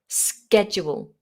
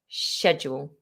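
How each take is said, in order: First: The word begins with an 'sk' sound. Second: The word begins with a 'sh' sound. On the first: "the American version, which is more of a K sound" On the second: "the purely British English version ... sh"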